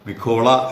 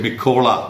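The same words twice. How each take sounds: The two takes are said the same way.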